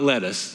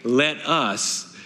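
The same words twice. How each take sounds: First: It is said fast, run together. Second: It is said slowly, words apart.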